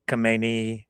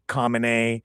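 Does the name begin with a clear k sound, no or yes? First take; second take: yes; yes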